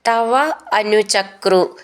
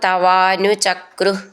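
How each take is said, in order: First: The two words are said separately. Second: The two words are merged into one word.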